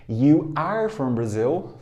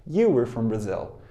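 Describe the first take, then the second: First: You are from Brazil, slow with you and are kept apart; teacher modelling the long form You are from Brazil; full form, slow. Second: You were from Brazil, you and were run together into one quick beat; teacher modelling the contraction You were from Brazil; contracted form. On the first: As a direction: say You are from Brazil unhurried, each word whole. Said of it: "Forma longa". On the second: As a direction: blend You were from Brazil smoothly, were reduced. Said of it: "Forma contraída". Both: Shown as a demonstration.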